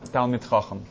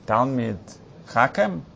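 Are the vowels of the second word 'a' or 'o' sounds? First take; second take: o sounds; a sounds. First: The second word is said with 'o' vowels. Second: The second word is said with 'a' vowels.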